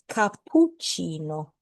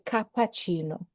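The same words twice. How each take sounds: First: The middle p sound is held longer. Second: The middle p sound is short, not held. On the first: The speaker calls it right. "the double P means that there's a stronger pause" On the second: The speaker calls it wrong. "Remember not to say cappuccino"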